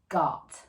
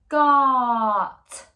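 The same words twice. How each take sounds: First: The word is said short at normal speed. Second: The word is drawn out slowly, sounds stretched.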